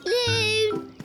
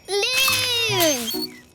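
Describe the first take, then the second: First: It is called louder. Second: It is called very loudly.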